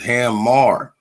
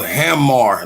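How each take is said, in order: First: The second syllable is a full 'mar' sound. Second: The second syllable is a reduced 'mer' sound. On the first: It keeps the link to Mars. The speaker calls it right. "So it's Ham Mar" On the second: It loses the link to Mars. The speaker calls it wrong. "like hammer time, We don't do the er sometimes"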